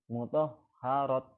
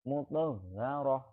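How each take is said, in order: First: The word ends with a t sound. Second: The word ends with a soft h sound. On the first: The speaker calls it wrong. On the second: The speaker calls it right. "roh ya"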